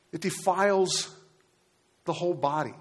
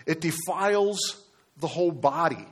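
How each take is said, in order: First: Preacher hammering the word defiles home; stress on defiles. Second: Said in the usual way. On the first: Shown as a demonstration. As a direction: lean hard into defiles, let the body fall. Preacher repeats key phrase.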